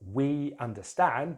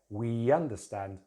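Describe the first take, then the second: First: The words are said separately, without a linking sound. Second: A y sound links the two words together.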